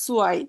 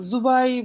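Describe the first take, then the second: First: The word begins with an s-like sound. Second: The word begins with a j-like sound. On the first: The speaker calls it right. "সেডের উচ্চারণটা অনেকটা জার্মানের এস, আহ, ইংরেজির এস এর মতো।" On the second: The speaker calls it wrong. "জুবাই বা ওরকম পড়া যাবে না।"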